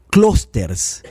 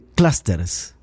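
First: The first vowel sounds like an 'o'. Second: The first vowel is a short 'uh' sound. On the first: The speaker calls it wrong. "No es clusters con O" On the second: The speaker calls it right. "Es una A corta"

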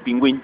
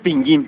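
First: The u after the g is sounded. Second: The u after the g is silent. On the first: The speaker calls it wrong. "no Pingüín" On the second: The speaker calls it right. "es Pingüín"

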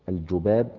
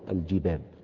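First: The first vowel is a u sound. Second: The first vowel is an i sound. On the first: "بالضم" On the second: "وبالكسر"

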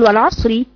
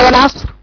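First: The r is light and carries a short i. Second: The r is heavy and the word stops on it. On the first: The word runs on into the next words. "لو انا وقف وصلا هقول والعصري" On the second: The reciter stops on this word. "لو وقفت عليها قف على والعصر"

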